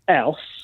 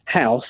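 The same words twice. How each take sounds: First: The word is said in a Cockney accent. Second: The word is said in a standard accent. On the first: "I go house" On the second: "instead of saying house"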